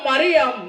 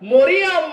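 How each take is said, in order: First: Three syllables, with an i after the r. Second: Three syllables, starting with an o vowel. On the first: "কোনটা বলা যাবে না" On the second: "কোনটা বলা যাবে না"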